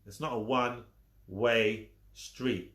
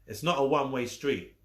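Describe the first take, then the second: First: Slower, stress on not; slow emphatic not; slow repeat. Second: Said in the usual way. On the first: Shown as a demonstration. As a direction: drag it out to hammer it home.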